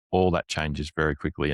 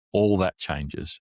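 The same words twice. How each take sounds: First: Said in the usual way. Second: All that changes, slowly and with weight on All; slow emphasis. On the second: Shown as a demonstration.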